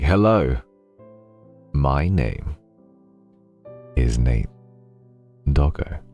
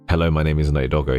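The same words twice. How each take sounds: First: An added pause breaks up the sentence. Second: It is read straight, with no added pause.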